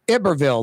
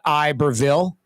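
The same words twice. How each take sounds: First: The name is pronounced in a French manner. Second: The name is pronounced in an English manner. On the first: The speaker calls it right. "like French" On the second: The speaker calls it wrong. "not Iberville"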